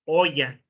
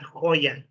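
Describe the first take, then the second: First: Hoya with a silent h; Spanish pronunciation. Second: Hoya with the h sounded; English pronunciation. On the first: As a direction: say Hoya as oya, no h. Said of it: "not Hoya". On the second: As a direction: say Hoya with a clear h. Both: Shown as a demonstration.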